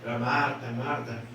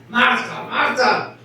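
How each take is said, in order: First: It is said in a soft, gentle tone. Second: It is said in a stern, scolding tone.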